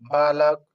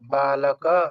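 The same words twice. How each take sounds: First: The word ends on a consonant, no final vowel. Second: The word ends with a short final a vowel. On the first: This is how Hindi speakers say it. "तो ऐसे हलंत कर देते हैं" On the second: This is how it is said in Sanskrit. "औकार के साथ ही उच्चारण करना पड़ेगा"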